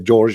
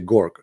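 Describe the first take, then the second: First: The word begins with a soft J sound. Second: The word begins with a hard G sound. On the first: "the letter J, they don't say J" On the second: "in Egypt ... they say uh, Gorg"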